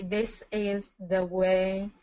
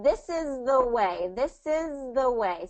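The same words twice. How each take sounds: First: Slowly, each word on its own; slow careful try. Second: Slow, with the words linked; slow model phrase. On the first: Learner practising slowly for the tutor, careful. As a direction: feel your way through it slowly. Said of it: "I don't know how to pronounce that smoothly". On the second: Tutor modelling the phrase slowly for the learner, linked. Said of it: "break it down". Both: Shown as a demonstration.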